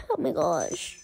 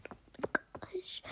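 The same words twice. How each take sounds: First: Said in the usual way. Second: Breathy unvoiced whisper. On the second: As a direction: whisper oh my gosh. Whispered repeat.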